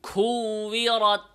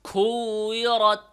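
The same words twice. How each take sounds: Both takes have the same delivery.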